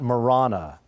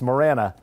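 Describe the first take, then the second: First: The name is pronounced the way outsiders say it. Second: The name is pronounced the way locals say it. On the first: This is how people from elsewhere say it. The speaker calls it wrong. "not Marana, as yes. The outsiders call it" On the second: This is how residents of the town say it. The speaker calls it right. "What we do know is that it's Marana"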